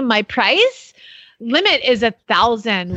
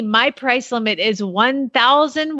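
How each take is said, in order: First: It is read in a put-on gushing voice. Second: It is read in her plain voice.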